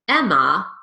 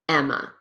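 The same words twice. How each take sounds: First: The final vowel is a full open 'ah'. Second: The final vowel is a weak 'uh' schwa. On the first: The speaker calls it wrong. "be careful not to say" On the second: The speaker calls it right. "use the schwa or the unstressed vowel, uh"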